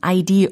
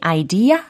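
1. 이 단어는 r 소리가 덧붙어서 끝나요. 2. 이 단어는 가볍고 담백한 모음으로 끝나요. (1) "이렇게 r 사운드로 끝부분을 발음하시는 분이 계실지 모르겠는데 그렇게 하면 안 됩니다" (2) "이렇게 좀 가볍게 담백하게 발음을 해주시면 좋겠어요"

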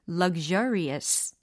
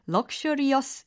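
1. 가운데 자음은 유성음 'zh' 소리입니다. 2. 가운데 자음은 무성음 'sh' 소리입니다. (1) "jer로 바뀐다" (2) "luxurious 이게 아니라 ... 셔가 아니라"

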